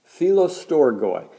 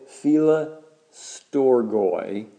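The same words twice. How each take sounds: First: Said in the usual way. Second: Philostorgoi drawn out very slowly, part by part. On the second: Shown as a demonstration. Preacher teaching the congregation a Greek word, said slowly. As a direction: stretch out Philostorgoi slowly, ending on a rise. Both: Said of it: "Say it slowly".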